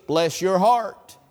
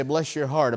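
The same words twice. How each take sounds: First: Slow, knowing "Bless your heart"; southern bless your heart. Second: Quiet, sweet "Bless your heart"; soft Southern pity. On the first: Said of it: "the right vocal inflection to use the phrase". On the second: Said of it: "you can say". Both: Shown as a demonstration.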